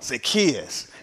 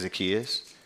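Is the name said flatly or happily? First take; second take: happily; flatly. First: The name is said in a happy, warm way. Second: The name is said in a plain, flat way.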